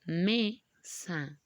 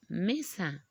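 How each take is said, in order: First: MESA split robotically into ME, pause, SA, with ME stronger; syllable by syllable. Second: MESA as one word, ME stronger than SA; stress on ME. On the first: Teacher asks if they notice, MESA in robotic syllables. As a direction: chop MESA in two, leaning on ME. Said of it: "Pronunciamos entonces como robots". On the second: Teacher shows one syllable sounds stronger, MESA stressed on ME. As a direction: say MESA joined up, leaning on the first syllable ME. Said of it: "una sílaba que suena más fuerte". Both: Shown as a demonstration.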